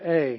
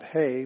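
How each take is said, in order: First: The word begins directly with a vowel. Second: The word begins with an h sound. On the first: The speaker calls it right. "This is a" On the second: The speaker calls it wrong. "not hey, because that's a smooth breathing mark"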